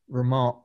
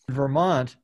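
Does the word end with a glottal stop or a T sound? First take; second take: glottal stop; T sound. First: The word ends with a glottal stop. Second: The word ends with a clear T sound.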